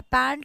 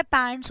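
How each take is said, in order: First: "पैंट" said without the final s; wrong singular form. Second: "पैंट्स" with a clear final s; correct plural form. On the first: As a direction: drop the s and say just "पैंट". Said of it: "पैंट कुछ नहीं होता". ("पैंट" बिना स के, गलत रूप) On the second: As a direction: stress the s sound at the end of "पैंट्स". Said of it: "क्या होता है?". ("पैंट्स" के अंत में साफ़ स) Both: Shown as a demonstration.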